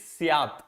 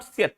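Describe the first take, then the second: First: "Syat" with a long open "aa"; the corrected long-vowel "Syat"; corrected pronunciation. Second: "Syat" with a short, quick vowel; the incorrect short-vowel "Syat"; mistaken pronunciation. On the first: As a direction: stretch the vowel in "Syat", like "syaat". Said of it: "Now it is not Syat". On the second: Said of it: "That's just a pronunciation". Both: Shown as a demonstration.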